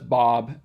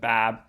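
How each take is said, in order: First: The vowel is said further back in the mouth. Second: The vowel is said further front in the mouth. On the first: This is the Canadian pronunciation. "so that's Bob" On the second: This is not the Canadian pronunciation. "rather than Bab"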